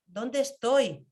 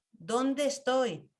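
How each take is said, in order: First: Said in the usual way. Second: Slow, drawn-out ¿Dónde estoy?, lingering on dónde; unhurried self-questioning; slow reflective question. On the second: Shown as a demonstration. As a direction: ask yourself slowly, turning inward.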